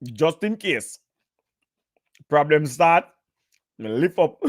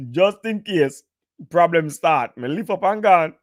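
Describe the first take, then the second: First: Said in the usual way. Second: Higher, laughing through the punchline; laughing repeat. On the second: Real, not acted. To the stream viewers, repeating the escape joke while laughing.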